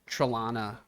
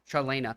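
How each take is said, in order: First: The middle vowel of the name sounds like 'ah'. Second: The middle vowel of the name sounds like 'eh'. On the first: The speaker calls it wrong. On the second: The speaker calls it right.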